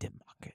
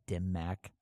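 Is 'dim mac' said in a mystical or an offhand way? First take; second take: mystical; offhand. First: It is said in a hushed, mystical way. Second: It is said in a flat, offhand way. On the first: It sounds like a secret mystical technique. "It wasn't like some sort of mystical like" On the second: Someone else said it casually and mispronounced it. "It was like that"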